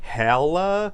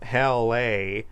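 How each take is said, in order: First: It is said as one merged word. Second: It is said as two separate parts. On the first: The speaker calls it wrong. "I pronounce it as Hella Edition. So my apologies" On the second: The speaker calls it right. "it's pronounced um, Hell A"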